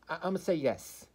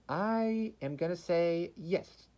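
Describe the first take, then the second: First: Said in the usual way. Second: Slow, high, drawn-out announcement; dramatic verdict. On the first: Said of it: "Ow, I bit my tongue". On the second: Acted.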